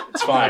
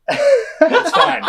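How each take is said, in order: First: Said in the usual way. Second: High, laughing reassurance; Dan Harmon laughing it off. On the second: Retold or imitated. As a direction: chuckle it off with a beer in hand. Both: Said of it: "He's like".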